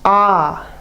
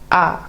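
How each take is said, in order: First: The vowel is held long and drawn out. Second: The vowel is cut short and clipped. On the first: "the long A" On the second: "a short A would be more like"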